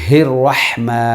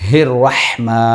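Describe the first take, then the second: Both takes have the same delivery.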